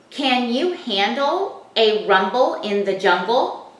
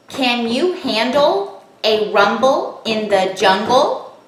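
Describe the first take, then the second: First: Slow reading. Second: Slow, each syllable tapped apart. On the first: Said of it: "now we want to read that sentence". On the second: Teacher taps the sentence out for children, slow and syllable by syllable. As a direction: tap out every syllable slowly. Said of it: "Now let's tap it". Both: Shown as a demonstration.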